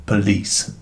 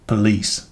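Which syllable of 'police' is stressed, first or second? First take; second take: second; second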